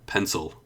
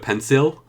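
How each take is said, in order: First: The second vowel is a reduced schwa. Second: The second vowel is a full clear vowel. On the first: The speaker calls it right. "but it's an uh pencil" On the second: The speaker calls it wrong. "People would probably understand you"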